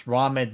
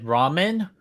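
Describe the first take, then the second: First: "ramen" said as RAH-men; first pronunciation of ramen. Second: "ramen" said as RAY-men; long "ay" in the first syllable of "ramen"; alternative pronunciation of ramen. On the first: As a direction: open "ah" in the first syllable of "ramen". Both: Shown as a demonstration. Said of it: "Do you pronounce ramen ramen or ramen?".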